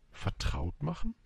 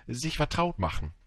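First: "Vertraut machen" with a rise at the end; questioning echo. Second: Said in the usual way. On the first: A narrator's reading. Little prince asking the fox what that means, questioning.

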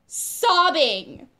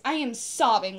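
First: "sobbing" loud, higher and stretched; emphatic repeat. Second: Said in the usual way. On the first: Real, not acted. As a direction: punch and draw out "sobbing".

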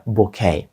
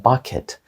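First: Bouquet said as "boo-KAY"; silent ending. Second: Bucket said as "BUCK-it"; contrasting word. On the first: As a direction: end bouquet on "ay", dropping the t. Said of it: "Тому будьте обережні". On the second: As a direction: stress the first syllable of bucket and sound the t. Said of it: "Bucket — це не букет". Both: Shown as a demonstration.

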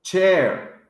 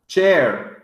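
Both takes have the same delivery.

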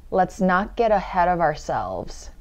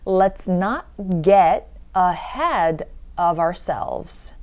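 First: Said in the usual way. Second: Very slow, word by word; slow demo. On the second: Shown as a demonstration. Teacher going through the sentence slowly, slow demo. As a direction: stretch out each word for learners to follow. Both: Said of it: "천천히 한번 볼게요".

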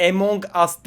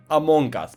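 First: "Among Us" run together as "monka s", hard k and no first vowel; mock the mangled "Among Us" as "monkas"; "Among Us" slurred into "monkas"; wrong pronunciation. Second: Careful "Among Us", two clear words; correct pronunciation. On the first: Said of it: "yanlış telaffuz ediyor". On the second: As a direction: show the right "Among Us", "among as". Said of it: "düzgün telaffuz edin". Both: Shown as a demonstration.

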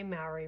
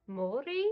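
First: "Maori" said the English way, MAH-ree with an English r; anglicised Maori. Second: "Maori" said the te reo way, MAW-ri with a tapped r; te reo Maori pronunciation. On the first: Vlogger admitting how she mispronounces "Maori". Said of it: "I know that I don't even say Maori right". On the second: Vlogger showing viewers the correct way to say "Maori". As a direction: give "Maori" its proper Maori vowels, MAW-ri. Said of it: "It's meant to be more like Maori". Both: Shown as a demonstration.

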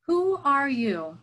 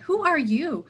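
First: Slow, higher hermit's voice; a hidden old hermit calling out slowly; old man in a cave challenging a stranger, wary; voice from the dark. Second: Higher, louder, teasing question; wandering teacher turning the hermit's question around; playful question. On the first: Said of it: "came a voice from the dark". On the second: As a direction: toss the question back with relish. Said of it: "answered Patrul". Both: A narrator's reading.

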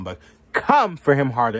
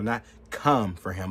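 First: "come for him harder" pushed out much louder; louder emphatic "harder"; stress on harder. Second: Said in the usual way. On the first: Shown as a demonstration. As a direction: lean hard into "harder" to demand more force.

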